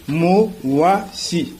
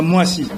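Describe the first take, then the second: First: "mo, wa, si" as three separate beats; syllable-by-syllable pronunciation. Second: Said in the usual way. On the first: Shown as a demonstration. Teacher showing how Mwasi is built, "mo, wa, si" split apart. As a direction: break the word into "mo", "wa", "si", pausing between. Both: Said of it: "C'est comme ça qu'on prononce Mwasi".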